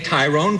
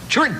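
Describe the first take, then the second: First: The name is said with two syllables. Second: The name is squeezed into one syllable. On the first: The speaker calls it wrong. "Everyone that spells accordion wrong would say Tyrone Guthrie" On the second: The speaker calls it right. "and it's Trun"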